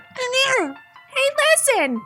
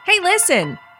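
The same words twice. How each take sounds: First: It is said in a very high voice. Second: It is said in her normal voice.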